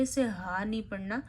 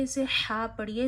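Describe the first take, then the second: First: "हा" as an ordinary Hindi ह, the wrong way; the ordinary ह sound, not from the throat; wrong plain ha. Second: "हा" from the middle of the throat, breathy and pharyngeal. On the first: (आम ह की तरह, गलत तरीका) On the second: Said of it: "हा गले के दरमियान से अदा होता है". ("हा" गले के दरमियान से) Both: Shown as a demonstration.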